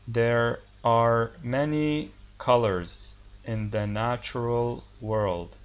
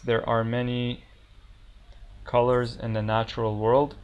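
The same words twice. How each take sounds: First: The sentence is spoken slowly and deliberately. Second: The sentence is spoken at normal speed.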